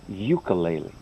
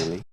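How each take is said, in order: First: It uses the common American pronunciation. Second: It uses the original, less common pronunciation. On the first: The speaker calls it wrong. "ninety-nine percent of the people incorrectly say ukulele" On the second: The speaker calls it right. "It's not. It's ukulele"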